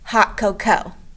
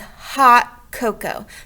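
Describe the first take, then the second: First: The first syllable is short, the last held long. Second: The first syllable is held longer than the rest. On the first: The speaker calls it wrong. "that's not how we say that" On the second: The speaker calls it right. "The first sound is a little bit longer than cocoa"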